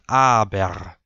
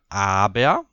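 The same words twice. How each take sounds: First: The final r is rolled as a consonant. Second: The final r becomes a schwa-like vowel.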